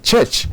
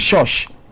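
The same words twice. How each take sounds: First: It is said with a standard pronunciation. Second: It is said with a regional Western Nigerian pronunciation. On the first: The speaker calls it right. "instead of church" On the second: The speaker calls it wrong. "if you are from the West"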